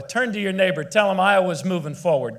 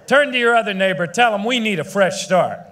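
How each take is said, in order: First: Said in the usual way. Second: Louder, faster call to the crowd; rally shout. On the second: Real, not acted. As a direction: whip the crowd up, fast and loud.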